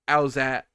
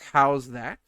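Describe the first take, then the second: First: The phrase is slurred into an even shorter form. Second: Both words are pronounced fully and clearly. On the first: "Then like uh" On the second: "the original thing is"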